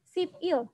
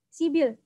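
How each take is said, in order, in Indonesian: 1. Kedua suku kata itu diucapkan terpisah. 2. Kedua suku kata itu disambung menjadi satu kata. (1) "Kalau kita bacanya per suku kata dibaca Sip, Il" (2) "orang Korea itu bacanya disambung gitu ya, diseret. Jadi bacanya Sibil"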